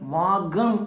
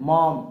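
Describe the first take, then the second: First: The name is said with two syllables. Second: The name is said with one syllable. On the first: The speaker calls it wrong. "மாகம் அப்படின்னு போட்டிருக்கும்" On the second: The speaker calls it right. "மாம் அப்படின்னு தான் pronounce பண்ணணும்"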